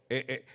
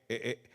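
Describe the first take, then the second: The two takes are said the same way.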